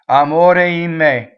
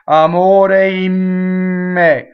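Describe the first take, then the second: First: The M sound passes quickly and briefly. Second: The M sound is held long and doubled. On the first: The speaker calls it right. "It has to go by so fast you don't even notice it" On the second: The speaker calls it wrong. "You don't want to double M"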